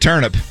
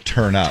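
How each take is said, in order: First: It is run together like the word turnip. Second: It is said as two separate words. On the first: The speaker calls it wrong. "Except I said it wrong" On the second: The speaker calls it right. "it needs to be more turn up"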